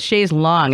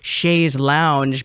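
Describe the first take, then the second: First: The second word sounds like long. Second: The second word sounds like lounge. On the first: It is the original form. The speaker calls it right. "It took me a while to say it correctly" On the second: It is the Americanized form. The speaker calls it wrong. "we've so Americanized that as like chaise lounge"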